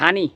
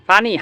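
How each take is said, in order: First: The word begins with an 'h' sound. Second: The word begins with a 'p' sound.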